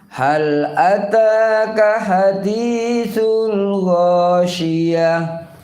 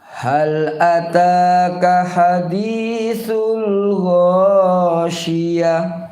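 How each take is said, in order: Both takes have the same delivery.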